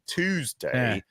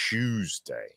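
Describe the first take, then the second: First: Tuesday is said in an American accent. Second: Tuesday is said in a British accent. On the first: This is how the other person says it. "You say" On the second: This is how the speaker says it. "I say Tuesday"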